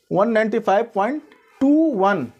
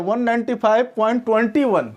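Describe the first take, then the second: First: After the point say "टू one" digit by digit, not twenty-one; "point two one" read one digit at a time; correct digit by digit. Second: "point twenty one" read as one number, twenty-one, after the point; wrong way shown. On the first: Teacher shows students the correct reading, "टू one" digit by digit. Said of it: "decimal के बाद से एक एक digit को पढ़ा जाता है".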